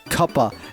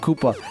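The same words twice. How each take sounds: First: The word is pronounced in an unusual way. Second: The word is pronounced in the ordinary way. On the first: This is how a game menu renders it. "I like pronouncing it weird because, like, in the level select for Mario sixty-four, it says Koopa" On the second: This is the normal pronunciation. "instead of Koopa"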